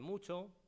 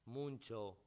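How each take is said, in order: First: No n sound is added before the ch. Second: An n sound is added before the ch. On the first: "en lugar de" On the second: "epéntesis nasal"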